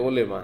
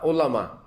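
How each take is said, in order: First: The second vowel sounds like 'e'. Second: The second vowel sounds like 'a'. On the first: The speaker calls it wrong. "অনেকে ওলেমা বলে, ওলেমা না" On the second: The speaker calls it right.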